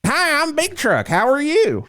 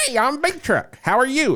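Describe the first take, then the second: First: Even higher country mascot greeting; country version. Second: Much higher twangy country greeting; a folksy country version of the mascot; country Chuck Entertainment. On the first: Acted. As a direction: pitch it way up like a country pitchman. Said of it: "I'm the country version of Chuck Entertainment". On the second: Retold or imitated. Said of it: "sounds like a country, uh, Charles Entertainment".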